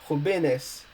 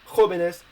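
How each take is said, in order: First: The stress is on the second syllable. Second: The stress is on the first syllable. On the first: The speaker calls it wrong. "if you don't do so, the plural form would be pronounced" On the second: The speaker calls it right. "we want it to be pronounced jóvenes as the same for joven"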